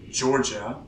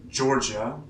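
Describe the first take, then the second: The two takes are said the same way.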